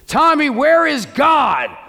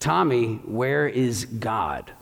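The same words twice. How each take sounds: First: The question is asked in an annoyed, irritated voice. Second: The question is asked in a calm, patient voice.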